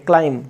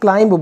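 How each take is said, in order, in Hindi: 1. अंतिम b ध्वनि मौन रहती है। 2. अंतिम b ध्वनि उच्चारित होती है।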